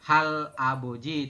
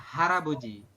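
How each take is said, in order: First: The l ends the first syllable, apart from the vowel. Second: The l joins the next vowel, sounding like r. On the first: The speaker calls it wrong. "bukan hal aboji" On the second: The speaker calls it right. "tapi dibacanya adalah haraboji"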